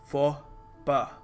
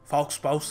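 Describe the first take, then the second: First: The final x and s sounds are silent. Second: The x and s sounds are pronounced aloud. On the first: The speaker calls it right. "यहाँ पर याद रखिएगा फॉ पा" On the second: The speaker calls it wrong. "फॉक्स पाउस नहीं है"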